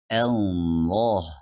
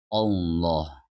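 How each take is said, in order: First: The word begins with a light 'a' sound. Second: The word begins with an 'o' sound. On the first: The speaker calls it right. "Jadi kita baca Allah" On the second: The speaker calls it wrong. "bukan memulainya dengan huruf O seperti Allah"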